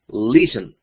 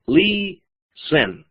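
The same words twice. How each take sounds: First: Said in the usual way. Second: "listen" separado en "li ... sen", con la primera alargada y aguda; dividido en sílabas. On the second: Shown as a demonstration. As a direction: silabear "listen" con pausa en medio. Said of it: "dos sílabas". ("listen" lento, en dos sílabas marcadas)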